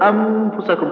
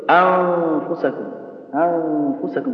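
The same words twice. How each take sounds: First: أنفسكم with the tongue pressed on the نـ, nun closed like idgham; wrong ikhfa. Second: أنفسكم slow, light nasal ghunna, breath flowing, tongue not touching; correct ikhfa. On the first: Teacher showing students the wrong أنفسكم, closed nun. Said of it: "خطأ". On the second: Teacher showing students the right أنفسكم, slow light ghunna. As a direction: let the air run through the ghunna in أنفسكم. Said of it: "تقول إيش؟". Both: Shown as a demonstration.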